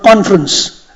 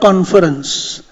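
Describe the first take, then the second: First: The word is said with a syllable left out. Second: The word is said with all its syllables. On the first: "We call it" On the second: "not conference"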